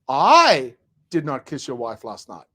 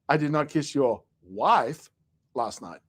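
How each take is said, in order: First: The stress falls on the word I. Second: The stress falls on the word wife.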